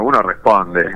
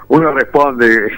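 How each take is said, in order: First: Said in the usual way. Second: "uno responde" said slower and higher, each word weighted; slow, pointed "uno responde" as a playful punchline; slow emphatic restatement. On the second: Shown as a demonstration. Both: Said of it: "un combatiente responde como corresponde".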